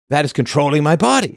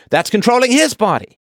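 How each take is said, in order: First: Mock woman quote. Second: Squeaky mock voice, much higher; sarcastic high echo of the women's line; mocking high-pitched quote. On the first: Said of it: "women say". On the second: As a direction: parody the same complaint in a sharply higher pitch. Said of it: "It's like".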